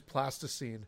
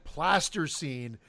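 First: The word begins with plastic, then ine. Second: The word begins with plaster, then scene. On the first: The speaker calls it right. "I was pronouncing it incorrectly, because it is plasticine" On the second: The speaker calls it wrong. "I kept calling it plaster scene"

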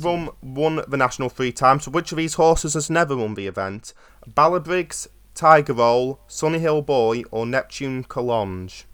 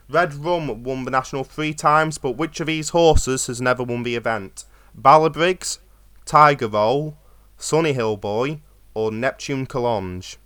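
First: It is said at a normal, quicker pace. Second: It is said slowly and deliberately.

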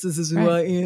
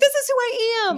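First: It sounds reluctant and gloomy. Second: It sounds bouncy and joyful. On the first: The speaker grudgingly resigns to who they are. The speaker calls it wrong. "not like reluctant, like, well, okay, I guess" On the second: The speaker happily embraces who they are. The speaker calls it right. "said in the Tigger voice"

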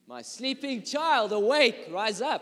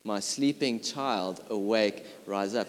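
First: It is said in a loud, commanding voice. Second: It is said at a normal, quieter volume.

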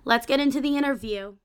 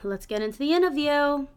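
First: It is said in a normal accent. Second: It is said in a put-on accent. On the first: The speaker calls it right. "I'm trying to say" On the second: The speaker calls it wrong. "Why am I saying it with that accent?"

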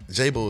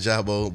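First: The first syllable sounds like the letter J. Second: The first syllable sounds like 'jah'. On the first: "J-Bo is cool too" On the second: "I said Jabo"

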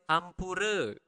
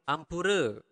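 The two takes are said the same way.

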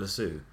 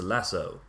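First: The word is said in a British accent. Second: The word is said in an American accent. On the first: "he doesn't call it a lasso" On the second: "In American accent"

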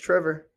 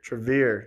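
First: The name is said as Trevor. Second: The name is said as Trevere. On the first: The speaker calls it right. "you got it right the first time. It's Trevor" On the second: The speaker calls it wrong. "I think I pronounced that wrong. It must be Trevere"

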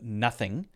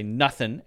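First: The word ends with a full g sound. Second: The word ends without the g sound. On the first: It is the standard, careful form. "instead of nothing" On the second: It is a casual, informal reply. "often people will say nothing instead of nothing"

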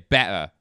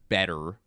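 First: It is said in a Cockney accent. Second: It is said in a plain standard accent. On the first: "they'd say better" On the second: "so instead of better"

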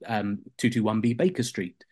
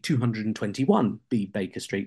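First: The number is read in a shortened form. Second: The number is read out in full. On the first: This is the modern way of saying it. "we say" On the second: This is how it was said in that period. "they didn't really shorten numbers"

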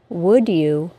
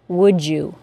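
First: A D sound then a Y sound. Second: A single J sound links the words.

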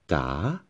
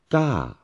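First: The pitch dips down then rises. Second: The pitch rises slightly then falls. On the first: "the rising tone or the valley tone" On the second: "Third one, falling tone or mountain tone"

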